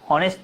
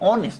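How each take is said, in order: First: The word starts with an h sound. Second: The word starts with a vowel sound. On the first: The speaker calls it wrong. "হনেস্ট তো না" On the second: The speaker calls it right. "এটা তো অনেস্ট"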